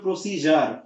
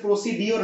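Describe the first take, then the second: First: The middle consonant is a 'j' sound. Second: The middle consonant is a plain 'd' sound. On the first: The speaker calls it right. "উচ্চারণটা হবে প্রসিজার" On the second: The speaker calls it wrong. "যেমন হচ্ছে প্রসিডিওর না"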